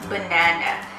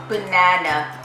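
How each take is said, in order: The two takes are said the same way.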